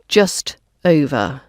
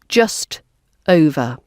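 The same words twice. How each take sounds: Both takes have the same delivery.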